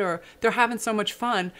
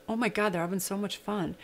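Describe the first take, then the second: First: Said in the usual way. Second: Soft, hushed realization; quietly charmed by the joy next door; delighted inner thought. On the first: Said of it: "And then I was like". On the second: Retold or imitated. Hearing kids sing, softly delighted realization. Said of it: "But right after that was".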